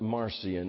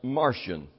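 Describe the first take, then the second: First: The name is said as spelled, Mar-see-on. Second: The name sounds like the word Martian. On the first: "Just to see it, you might pronounce it Marcion" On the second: "it's pronounced Martian, as like one of the little green men"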